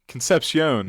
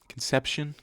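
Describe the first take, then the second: First: It does not sound like English conception. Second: It sounds like the English word conception. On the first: The speaker calls it right. "that sounds more right" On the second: The speaker calls it wrong. "not Conception. That's like baby making"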